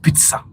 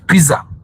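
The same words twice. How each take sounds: First: The word is said with a t sound. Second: The word is said without a t sound. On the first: The speaker calls it wrong. "not pizza" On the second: The speaker calls it right. "There is no tea"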